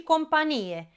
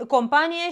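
First: "companie" stressed late, com-pa-NI-e. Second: "companie" stressed in the middle, com-PA-nie. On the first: Teacher contrasting homographs, "companie" stressed on NI. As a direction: land on the NI of "companie". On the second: Teacher contrasting homographs, "companie" stressed on PA. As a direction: hit the A of "companie". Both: Shown as a demonstration. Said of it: "dar se citesc diferit".

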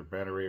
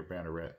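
First: Banneret said as "banner-AY"; silent-T pronunciation. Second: Banneret said as "banner-ET"; sounded-T pronunciation. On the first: Knife reviewer weighing two options, Banneret ending in "ay". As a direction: end Banneret on "ay", dropping the T. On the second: Knife reviewer weighing two options, Banneret ending in "et". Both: Shown as a demonstration. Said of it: "It's either Banneret or Banneret".

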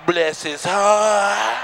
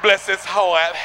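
First: Drawn-out, slow church-lady pity; slow pitying grandma. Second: Said in the usual way. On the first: Retold or imitated. Grandma in church pities an ugly baby, drawn out slow. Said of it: "Your grandma walk from nowhere". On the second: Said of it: "That's what old people say about you".

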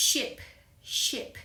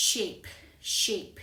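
First: "ship" with a brief "ih"; short vowel example. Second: "shape" said as "sheep", with a long "ee"; long vowel example. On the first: Teacher contrasting the shorter sound, "ship" said with short vowel. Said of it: "เสียงสั้นกว่านะคะ". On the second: Teacher modelling the example word, "shape" pronounced "sheep" with long vowel. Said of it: "คำนี้ก็คือคำว่า". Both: Shown as a demonstration.

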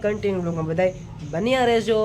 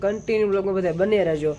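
First: Said in the usual way. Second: Fast, tossed-off run through the usual sign-off; rattled-off catchphrase. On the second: Shown as a demonstration. Vlogger quoting his own worn-out outro to viewers, fast and tossed-off. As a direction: rush through the familiar "continue બ્લોગમાં બધાય બન્યા રહેજો". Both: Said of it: "ઘણી વાર હું એમ કહેતો હોય ને".

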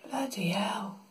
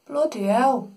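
First: Breathless whispered curse; whispering. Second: Said in the usual way. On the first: Real, not acted. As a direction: whisper it under your breath. Repeats exclamation in two ways.

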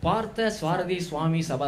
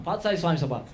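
First: "Partha Swarathi Swami Sabha" said slowly, all four words apart; plain full name. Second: "Partha Swami Sabha" run together into one quick word; Tambram mama slur. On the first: Shown as a demonstration. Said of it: "That's four words". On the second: Retold or imitated. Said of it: "Tambra mamas will make it into a single word".

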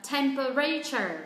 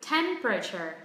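First: Temperature said "tem-pe-RAY-cher"; common learner error. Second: TEM-pruh-cher for Temperature, falling after TEM; first-syllable stress. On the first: Retold or imitated. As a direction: wrongly stretch and stress RAY in Temperature. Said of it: "các bạn ấy phát âm sai". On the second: Shown as a demonstration. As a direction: hit TEM in Temperature and reduce the rest. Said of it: "trọng âm rơi vào âm tiết thứ nhất".

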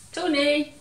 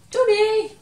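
First: Raised call across the room. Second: Much higher and louder calling shout. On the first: Teacher looking for toy Tony, raised call. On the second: Teacher still can't find Tony, loud high shout. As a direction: shout for Tony as if he is far away. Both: Acted.

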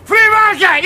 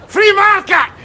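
First: Full ranting bellow of free market; louder shouted slogan. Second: Ranting shout of free market; shouted slogan. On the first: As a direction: roar it at the street. Ranting repeat. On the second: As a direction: bellow it like a street ranter. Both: Acted.

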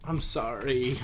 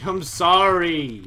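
First: Said in the usual way. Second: "I'm sorry" stretched slowly and said louder and higher, falling on "sorry"; drawn-out apology. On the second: Shown as a demonstration.

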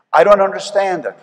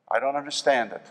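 First: Louder and higher, pleading with heaven; I don't understand it, called out loud; emphatic cry. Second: Softer, turned inward; I don't understand it, said softly; soft repeat. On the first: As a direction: throw it out loud in frustration. Pastor repeats, first loud. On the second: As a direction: drop it quietly, almost to yourself. Pastor repeats, second soft. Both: Real, not acted.

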